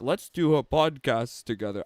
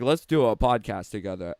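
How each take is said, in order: First: Put-on half-hearted go at an Australian accent; badly faked Australian accent; attempted Australian accent. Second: Said in the usual way. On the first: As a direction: imitate an Australian and not quite get there. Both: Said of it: "I can't do an Australian together accent".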